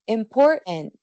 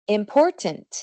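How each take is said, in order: First: The middle t is a throat closure. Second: The middle t is pronounced clearly. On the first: The speech is informal. "cuando estamos hablando informalmente" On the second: The speech is formal. "con una pronunciación más formal"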